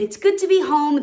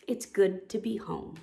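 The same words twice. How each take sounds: First: Said in the usual way. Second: Soft, settled story ending; contented. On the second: A narrator's reading. Cub cuddled in cozy cave, contented. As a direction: let it rest gently, softly.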